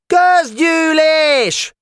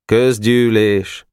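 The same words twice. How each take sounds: First: Very high, stretched-out screech; squawking demand across the yard; screeching shout. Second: Slow, drawn-out reluctant announcement; resigned, falling call to order. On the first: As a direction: yell it shrilly, dragging each syllable. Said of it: "rikácsoló hangon kiabált". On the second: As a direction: announce it unwillingly, without shouting. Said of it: "Szomorúan nyugodott bele". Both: A narrator's reading.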